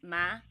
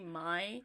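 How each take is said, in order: First: It is said in a Southern accent. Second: It has a long I, no Southern accent.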